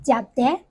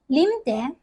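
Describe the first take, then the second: First: "jiao de" said the Chaoshan way, rising on "de"; Chaoshan pronunciation. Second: "lim de" said the Hokkien way, falling on "lim"; Hokkien pronunciation. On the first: Showing viewers how Chaoshan says drinking tea. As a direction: say "jiao de", lifting the "de". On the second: Showing viewers how Hokkien says drinking tea. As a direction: say "lim de", letting "lim" fall. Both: Shown as a demonstration. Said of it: "pronounced as".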